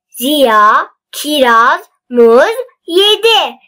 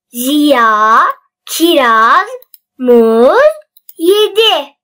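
First: The sentence is read at a faster pace. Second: The sentence is read at a slow pace. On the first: "Şimdi de biraz hızlı okuyalım" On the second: "Birinci okumam yavaş"

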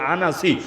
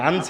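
First: An a vowel sits between n and s. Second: There is no vowel between n and s. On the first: The speaker calls it right. "শুদ্ধ হচ্ছে আনাসি" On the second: The speaker calls it wrong. "আনসি বলে অনেকে"

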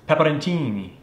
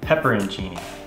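First: The word is said with an Italian accent. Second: The word is said with an American accent. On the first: "as they were saying on all the Italian videos I was watching" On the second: "but it's pepperoncini"

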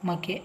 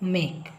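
First: The final e is sounded as a vowel. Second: The final e is silent. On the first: The speaker calls it wrong. "ಇದು ಮಕೆ ಅಲ್ಲ" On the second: The speaker calls it right.

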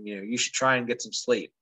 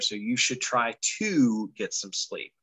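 First: The word after try is and, with no t. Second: The word after try is a clear to. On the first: The speaker calls it wrong. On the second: The speaker calls it right.

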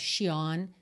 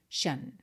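First: The ending is said as shion. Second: The ending is said as shan. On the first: The speaker calls it wrong. "não é shion" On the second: The speaker calls it right. "se pronuncia shan"

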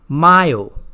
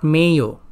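First: The first vowel is a pure Spanish ah sound. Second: The first vowel is an English-style a sound. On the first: The speaker calls it right. "in Spanish, whenever you see A, it is always going to be pronounced as A" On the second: The speaker calls it wrong. "not Mayo"

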